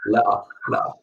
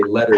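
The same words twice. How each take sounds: First: Le'a with a glottal stop for the t; dropped t. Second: Said in the usual way. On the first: Retold or imitated. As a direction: swallow the t in le'a. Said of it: "he says le'a". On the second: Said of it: "he doesn't say letter, he says le'a".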